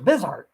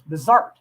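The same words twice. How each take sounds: First: The stress is on the first syllable. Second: The stress is on the second syllable. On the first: The speaker calls it wrong. "I was pronouncing it wrong" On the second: The speaker calls it right. "with the emphasis on the second syllable"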